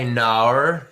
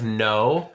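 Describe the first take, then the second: First: "nar" with an Aussie twisted vowel; "nar", no drawn into an Aussie r-colored vowel; Australian-style no. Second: Said in the usual way. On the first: Shown as a demonstration. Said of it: "you don't say "nar" instead of "no". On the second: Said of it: "instead of "no".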